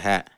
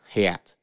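First: It is said in a standard accent. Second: It is said in a Southern accent.

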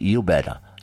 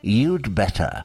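First: The word 'had' is left out completely. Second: The word 'had' is shortened to a 'd' sound. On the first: "instead of the contraction, they just say you better" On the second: "you can contract"

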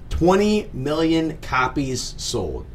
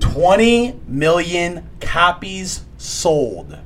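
First: The words are said at normal volume. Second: The words are said at high volume.

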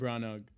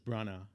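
First: The final consonant at the end is sounded. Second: The name ends on a vowel, nothing after. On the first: The speaker calls it wrong. "I mean, not Ken Branagh" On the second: The speaker calls it right. "you don't pronounce it"

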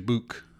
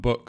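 First: It is said with a Liverpool accent. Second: It is said with a standard accent. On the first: "Liverpudlians will say" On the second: "rather than book"

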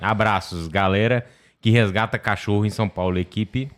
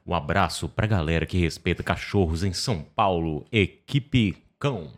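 First: It is said in a plain, flat voice. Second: It is said in a lively announcer voice.

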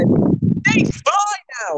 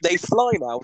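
First: It is said as a shocked exclamation. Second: It is said as a doubtful question.

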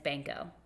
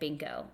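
First: The first vowel sounds like the 'a' in 'ban'. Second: The first vowel sounds like the 'i' in 'bin'. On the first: This is the proper pronunciation of the Hungarian name. The speaker calls it right. "and it's Banco" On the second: This is how the husband said the name for years. The speaker calls it wrong. "His whole life, he said Binko"

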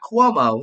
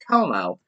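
First: The name begins with a kw sound. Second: The name begins with a plain k sound. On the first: The speaker calls it wrong. "not Cuomo. There's no Q in it" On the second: The speaker calls it right. "It's Cuomo"

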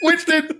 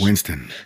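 First: It is said in a scared voice. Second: It is said in a deep, low voice.

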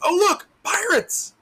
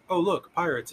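First: It is said with lively, exclaiming energy. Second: It is said flatly, without excitement. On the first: "With an exclamation point" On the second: "So instead of like"

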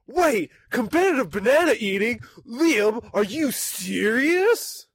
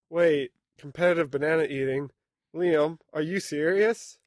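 First: It is said with more emotion. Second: It is said flatly, with little emotion.

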